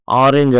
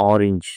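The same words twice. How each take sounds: First: ఆరెంజ్ said as "aa-renj" with open a and e; common Indian pronunciation. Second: ఆరెంజ్ said as "orinj" with a short o and i; correct pronunciation. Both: Shown as a demonstration.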